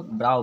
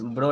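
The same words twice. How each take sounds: First: ब्राउ with an "ow" glide; correct pronunciation. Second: ब्रो with a plain long o; wrong pronunciation. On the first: Teacher correcting the reading for students, ब्राउ said with "ow". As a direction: say ब्राउ to rhyme with "now". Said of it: "इसको ब्राउ पढ़ते हैं". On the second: Teacher showing students the misreading of brow, ब्रो said "broh". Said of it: "इसको इस ब्रो नहीं पढ़ते". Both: Shown as a demonstration.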